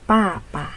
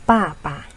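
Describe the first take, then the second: The two takes are said the same way.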